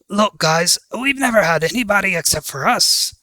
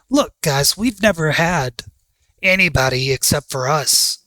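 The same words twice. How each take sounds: First: It is said in a put-on character voice. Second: It is said in the speaker's normal voice.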